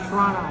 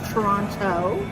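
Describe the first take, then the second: First: The second T is dropped, said quickly. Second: The second T is clearly pronounced. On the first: "if you want to say it fast, you just say" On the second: "properly it's"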